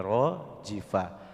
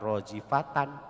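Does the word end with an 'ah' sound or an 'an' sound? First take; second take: ah; an. First: The word stops on a final 'ah' sound. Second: The word ends with a full 'tan' ending. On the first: The speaker calls it right. "tapi rojifah" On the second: The speaker calls it wrong. "bukan rojifatan"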